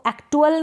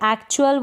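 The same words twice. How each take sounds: First: The middle consonant is a plain 't' sound. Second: The middle consonant is a 'ch' sound. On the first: The speaker calls it wrong. "तो एक्चुअल नहीं बोलेंगे" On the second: The speaker calls it right. "एक्चुअल बोलेंगे"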